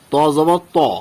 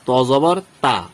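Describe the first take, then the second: First: The vowel is heavy and dark, not a clear 'aa'. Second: The vowel is a clear, open 'aa' sound. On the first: The speaker calls it right. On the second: The speaker calls it wrong.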